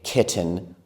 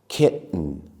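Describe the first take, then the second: First: The t is clearly released before the ending. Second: The t becomes a brief catch in the throat. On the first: The speaker calls it wrong. "We can say kitten, button, and smitten, but it doesn't sound as natural" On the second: The speaker calls it right. "we close our throats for just a moment when we speak. I'll do this to show you"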